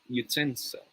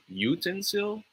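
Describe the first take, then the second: First: Yoo-TEN-sil for utensil; stress on second syllable. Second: YOO-ten-sil for utensil; stress on first syllable. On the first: Tutor quizzes students, second-syllable stress. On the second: Tutor quizzes students, first-syllable stress. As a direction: hit the u of utensil. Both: Shown as a demonstration. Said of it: "This one is a matter of stress".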